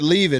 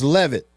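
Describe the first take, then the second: First: The first vowel sounds like 'ee'. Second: The first vowel sounds like 'eh'. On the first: The speaker calls it wrong. "I think I said leave it earlier" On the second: The speaker calls it right. "like the E is pronounced in Levy, so Levitt"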